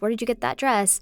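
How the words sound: It sounds genuine and friendly.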